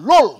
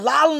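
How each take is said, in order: First: The vowel sounds like a rounded 'o'. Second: The vowel sounds like an open 'a'. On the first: The speaker calls it right. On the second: The speaker calls it wrong. "এটা লাল না"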